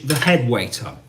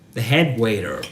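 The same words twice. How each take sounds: First: It is said in a British accent. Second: It is said in an American accent. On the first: "British English" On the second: "In American English, that's waiter"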